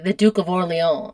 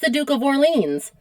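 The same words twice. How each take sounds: First: The name is said in a French-like accent. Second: The name is said in an American accent.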